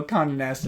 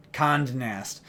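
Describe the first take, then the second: First: Said in the usual way. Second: "Condé" said as one syllable, "Cond", with no final "ay"; accent left off. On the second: Shown as a demonstration. Reader shows the filing's misspelling, "Condé" cut to "Cond". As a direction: read "Condé" as if unaccented, rhyming with "fond". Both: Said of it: "they left off the accent aigu".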